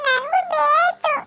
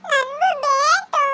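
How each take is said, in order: First: Put-on high, slow tearful child's demand; crying demand. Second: Put-on high, slow tearful child's demand, held on ಬೇಕು; crying demand. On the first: A child tells her mother she wants some too, wailing. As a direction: wail it like a child wanting it. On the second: A child insists to her mother, wailing. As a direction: wail it again like a child.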